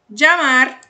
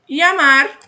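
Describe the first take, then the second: First: The ll is said like a 'dj' sound. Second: The ll is said like a 'y' sound. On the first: "som de D J" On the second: "som de I"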